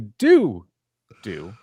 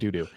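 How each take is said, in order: First: The two words are separated by a short gap. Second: The two words run together without a gap. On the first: The speaker calls it right. "see how the separation there" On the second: The speaker calls it wrong. "doesn't sound like I said doo doo"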